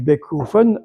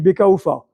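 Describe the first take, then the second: First: It is said in the Strasbourg dialect form. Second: It is said in the Mulhouse dialect form. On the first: "à Strasbourg on dit" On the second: "à Mulhouse on dit"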